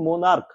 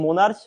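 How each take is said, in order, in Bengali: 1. শব্দটি k উচ্চারণে শেষ হয়। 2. শব্দটি ch উচ্চারণে শেষ হয়। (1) "উচ্চারণটা কি, মোনার্ক" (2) "এটা কিন্তু মোনার্চ উচ্চারণটা নয়"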